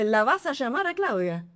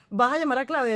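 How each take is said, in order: First: It is said with an Argentine accent. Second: It is said without an Argentine accent.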